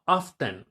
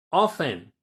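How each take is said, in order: First: "often" slowly as OFF-ten, T sounded; the example to avoid: "often" with a clear T; pronounced T. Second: "often" loud, as OFF-en with no T; silent T. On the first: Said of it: "a veces lo pronuncian como often". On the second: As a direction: leave the T out of "often", firmly. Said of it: "como si eliminaras la T". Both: Shown as a demonstration.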